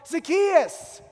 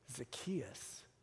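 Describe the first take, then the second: First: The name is said in an eager, excited tone. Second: The name is said in a harsh, snarly tone. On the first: The caller is glad to greet a long-lost friend. The speaker calls it right. "He says your name with enthusiasm" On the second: The caller is annoyed with the person. The speaker calls it wrong. "he doesn't say it with a snarly face"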